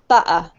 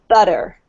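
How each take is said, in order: First: The middle consonant is a glottal stop. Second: The middle consonant sounds like a soft D. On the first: "replaced by um, what we call a glottal stop, ... if you're from London, you'll probably say butter" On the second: "it's actually pronounced like a D sound. It's pronounced like this. So they would say butter"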